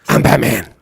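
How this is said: It is said in a husky, gravelly voice.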